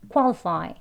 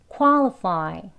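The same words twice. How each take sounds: First: The word is said at a fast pace. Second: The word is said at a slow pace. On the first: "빨리요" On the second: "천천히 해볼게요"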